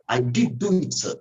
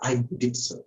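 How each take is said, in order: First: Imitated emphatic DID; stress on DID. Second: Said in the usual way. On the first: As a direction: insist with "did do it". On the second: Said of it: "what she was meant to say".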